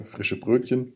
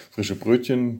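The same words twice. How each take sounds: First: Choking on a drink. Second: Said in the usual way. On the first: Real, not acted. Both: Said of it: "ich hab mich verschluckt".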